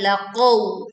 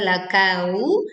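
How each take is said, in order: First: The middle consonant is a deep q sound. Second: The middle consonant is a front k sound. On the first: The speaker calls it right. "tetapi laqaw" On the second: The speaker calls it wrong. "bukan lakau"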